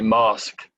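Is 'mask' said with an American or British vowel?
British. The vowel is a broad British 'ah' sound. "with my uh, funny accent"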